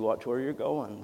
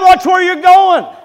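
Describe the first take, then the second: First: It is said in a mild, gentle tone. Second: It is said in a loud, angry tone. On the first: A kind, forgiving warning. "the humble little preacher" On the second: An exasperated scolding of a reckless driver. "with passion and conviction"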